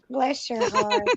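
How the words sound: It is said in a snide, mocking tone.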